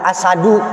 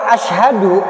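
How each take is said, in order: First: The middle has plain s without h. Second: The middle has sh followed by h. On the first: It means lion. The speaker calls it wrong. "kita agak ringankan" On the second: It means I bear witness. The speaker calls it right. "alif shin ha dal, ini yang tepat"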